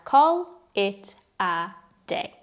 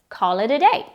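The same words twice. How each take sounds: First: The words are said slowly and kept separate. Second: The words are said quickly and blended together. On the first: "The four words in this phrase are" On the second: "we normally say this quickly, so the words can blend together a bit"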